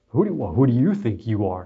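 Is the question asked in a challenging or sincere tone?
challenging. It is asked as a challenging, scornful rebuke. The listener is being put down for overstepping. The speaker calls it wrong. "Not like in a, ... No, not like that"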